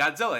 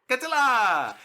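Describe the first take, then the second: First: The final vowel is short and ordinary. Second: The final vowel is drawn out long. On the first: This is how most people said it. "everyone else would say Godzilla" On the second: This is how the annoying child character said it. "he would say Godzilla, and they would like stretch the A out"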